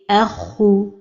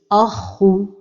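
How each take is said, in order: First: Only the kha is heavy; the hamza stays light. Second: The opening hamza is made heavy too. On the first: The speaker calls it right. "Donc la prononciation correcte est erhu" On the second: The speaker calls it wrong. "il ne faut pas emphatiser al-hamza comme ceci"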